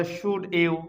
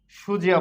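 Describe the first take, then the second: First: Said in the usual way. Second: "সুজিয়া" with d and y fused into j; linked pronunciation. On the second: Shown as a demonstration. Teacher answers what we will say, "সুজিয়া" with a j link. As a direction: run it together as shu-jia, "সুজিয়া". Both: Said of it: "এটাকে আমরা কি বলবো".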